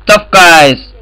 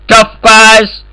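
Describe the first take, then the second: First: Said in the usual way. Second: Tough guys? asked with a high mocking rise on tough; mocking question. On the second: To the other players, rising mocking tough guys question. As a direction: sneer the question up, pitch leaping on tough.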